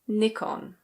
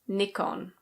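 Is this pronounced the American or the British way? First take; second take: British; British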